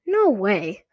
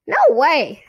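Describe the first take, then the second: First: Firm refusal, a little louder; insisting. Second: High, loud puppet voice; squeaky dummy refusal. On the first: Girl refuses to dump the dummy, firmly insisting. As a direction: dig your heels in, usual pitch. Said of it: "Lindy insisted". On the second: Dummy echoes the girl's refusal, high loud squeak. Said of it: "she made Slappy say". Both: A narrator's reading.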